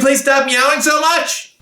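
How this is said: The voice sounds angry and harsh. "please stop using an angry voice"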